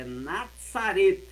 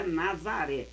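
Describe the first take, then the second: First: "Nazaret" slow, with the final t sounded; the Hebrew "Nazaret", not the Portuguese one; Hebrew pronunciation. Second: Said in the usual way. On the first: Shown as a demonstration. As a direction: stress and stretch "Nazaret", ending on a clear t. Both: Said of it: "Mas não é Nazaré".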